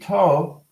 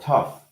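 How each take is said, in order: First: The word ends in a vowel, no F sound. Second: The word ends with an F sound. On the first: The speaker calls it wrong. "they could be silent" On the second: The speaker calls it right. "tough is correct"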